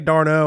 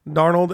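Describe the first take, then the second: First: The name ends on 'no' without 'ld'. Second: The name ends with a clear 'ld' sound. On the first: The speaker calls it wrong. "It sounds like you'd want to say Darno" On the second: The speaker calls it right. "it's Darnold. It's just exactly how it's spelled"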